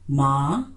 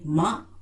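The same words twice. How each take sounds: First: The word is said with a low tone. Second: The word is said with a creaky tone.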